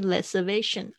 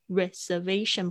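First: The first sound is an L-like sound. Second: The first sound is a clear English R. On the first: The speaker calls it wrong. "不是reservation" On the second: The speaker calls it right. "r 跟那个l 的音哦"

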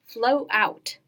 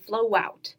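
First: The words are said separately. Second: A w sound links flow into out.

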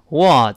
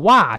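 First: An American vowel with a wider mouth opening. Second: An overly wide, exaggerated American vowel. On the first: The speaker calls it right. "美式呢口型变得大一些，读成what" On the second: The speaker calls it wrong. "但也不要夸张的what"

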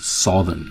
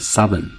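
First: The first syllable sounds like the word 'south'. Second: The first vowel differs from the vowel in 'south'. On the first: The speaker calls it wrong. "不是southern" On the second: The speaker calls it right. "这个发音念southern"

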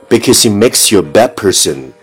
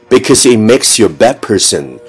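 No difference in how they are said.

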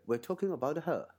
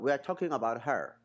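First: It is said in a British accent. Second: It is said in an American accent. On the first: "那英式发音呢" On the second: "美国美语说这个her 就她"

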